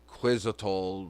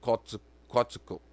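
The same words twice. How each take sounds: First: The name is said with English-style sounds. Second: The name is said with Nahuatl-like sounds. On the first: The speaker calls it wrong. "they say Quetzalcoatl, but that's not how it's pronounced" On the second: The speaker calls it right. "it's Quetzalcoatl"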